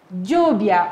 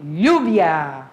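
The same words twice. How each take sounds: First: Lluvia starting with an English-J sound, "djubia". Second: Lluvia starting with a Portuguese LH sound, "lhubia". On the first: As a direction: say Lluvia as "DJOO-bia". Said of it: "Ou como a Suzana gosta de falar". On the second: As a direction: say Lluvia as "LYOO-bia", low falling tone. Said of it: "o L L com o som do L H". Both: Shown as a demonstration.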